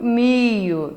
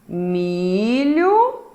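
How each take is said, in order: First: The lh sound becomes a plain i. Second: The lh sound is clearly pronounced. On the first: This is the colloquial form. "a variante coloquial de milho" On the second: This is the standard form. "Como exemplo da variante padrão"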